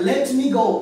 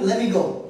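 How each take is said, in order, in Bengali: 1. let me দুটি পূর্ণ শব্দ হিসেবে বলা হয়। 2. let me একসাথে মিশে একটি শব্দের মতো বলা হয়। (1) "এটা না" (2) "বলবেন"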